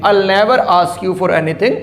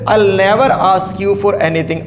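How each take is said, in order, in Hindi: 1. "I will" को एक शब्दांश में छोटा कर दिया जाता है, "I'll"। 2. "I will" को एक शब्दांश में छोटा कर दिया जाता है, "I'll"।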